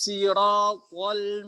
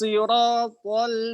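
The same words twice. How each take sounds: First: It begins with a light, plain s sound. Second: It begins with a heavy, emphatic s sound. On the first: This is an alternative reading by a particular transmitter. "sodnya dibaca sin" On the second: This is the reading of the majority. "jumhur membaca dengan sod"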